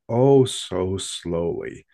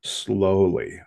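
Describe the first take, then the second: First: Oh so slowly, stretched very slow; drawn out slowly. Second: Said in the usual way. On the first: A narrator's reading. Telling listeners how the thing crept away, drawn-out slow narration. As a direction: drag out each word like slow motion.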